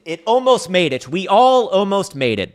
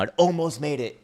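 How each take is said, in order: First: Hammed-up wail. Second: Mock lament. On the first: Streamer mourning Bitcoin's lost price to viewers, hammed-up wail. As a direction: wail it like a tragedy, building up. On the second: Mourning Bitcoin nearly holding six digits.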